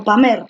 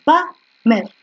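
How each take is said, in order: First: "pamer" stressed on PA; right stress. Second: "Pamer" stressed on MER; wrong stress. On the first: Teacher offering students the right "pamer" stress. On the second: Teacher offering students a wrong "Pamer" stress. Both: Shown as a demonstration. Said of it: "Tú dices pamer o dices pamer".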